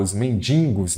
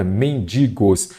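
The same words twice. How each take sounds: First: "mendigos" com N intruso, como "mendingos"; pronúncia errada de mendigos. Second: "mendigos" com "di" limpo, sem N; pronúncia correta de mendigos. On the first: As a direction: diga "mendigos" errado, nasalizando o "di" em "din". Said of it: "Aqui muita gente fala". ("mendigos" como muita gente fala, soando "men-din-gos") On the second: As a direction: articule "mendigos" como "men-di-gos". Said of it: "O correto é". ("mendigos" bem marcado, sem nasalizar o "di") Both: Shown as a demonstration.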